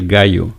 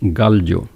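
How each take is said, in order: First: The ll is not said as an l sound. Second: The ll is said as an l sound. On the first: This is how people usually talk. "People say gallo" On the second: This is how the letter is supposed to sound. "this letter it should sound gallo"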